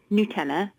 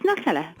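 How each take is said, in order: First: Nutella said as noo-TELL-a; long oo opening on Nutella; official pronunciation. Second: Nutella said as nut-ELLA; English pronunciation. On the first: Brand expert conceding the official name, noo-TELL-a for Nutella. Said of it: "I know that it's". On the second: Guest insisting because we're English, nut-ELLA for Nutella. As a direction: start Nutella like the word nut. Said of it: "'cause we're English". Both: Shown as a demonstration.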